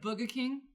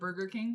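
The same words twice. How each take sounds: First: It is said with a New York accent. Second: It is said with a neutral accent. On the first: "My cousins from New York, they'd say like" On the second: "instead of"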